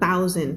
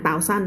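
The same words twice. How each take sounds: First: "thousand" as THOU-z'nd, second syllable reduced; stress on first syllable. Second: "thousand" as tao-san, Thai-style even syllables; wrong pronunciation. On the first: Teacher modelling English stress, "thousand" front-stressed. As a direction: hit the start of "thousand", shrink the end. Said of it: "เสียงก็ stress ข้างหน้า". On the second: Teacher showing what not to say, "thousand" as tao-san. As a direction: give "thousand" a full second syllable. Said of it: "ไม่อ่าน thousand นะ". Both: Shown as a demonstration.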